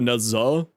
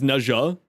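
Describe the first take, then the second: First: The middle consonant is a Z sound. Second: The middle consonant is a J sound. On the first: This is how the speaker habitually says it. "just my brain because dyslexia, I go Naza" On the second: This is how the name is said in the game. "the way that they pronounce it in game is Naja with a J rather than a Z"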